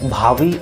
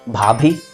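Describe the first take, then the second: First: The second consonant is a v sound. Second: The second consonant is a bh sound. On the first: The speaker calls it wrong. "लोग सबसे बड़ी गलती इसके उच्चारण में करते हैं" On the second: The speaker calls it right. "सही उच्चारण"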